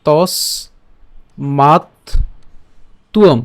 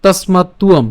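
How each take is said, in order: First: তস মাত তুয়ম with long pauses between syllables; broken into syllables. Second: তস্মাত্তুয়ম joined smoothly in one breath; said as one word. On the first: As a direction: split তস, মাত, তুয়ম apart slowly. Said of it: "এটাকে যদি একটু ভেঙে উচ্চারণ করি". (তস মাত তুয়ম ভেঙে ভেঙে উচ্চারণ) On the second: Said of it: "একসাথে উচ্চারণ করলে". (তস্মাত্তুয়ম একসাথে উচ্চারণ) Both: Shown as a demonstration.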